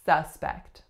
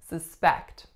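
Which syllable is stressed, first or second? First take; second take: first; second. First: The stress is on the first syllable. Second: The stress is on the second syllable. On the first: It is a noun. "As a noun, our stress is going to flip" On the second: It is a verb. "which syllable am I stressing in this word? The second one"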